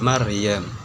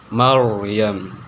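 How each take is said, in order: First: The r is pronounced light and thin. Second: The r is pronounced heavy and thick. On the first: The speaker calls it wrong. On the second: The speaker calls it right.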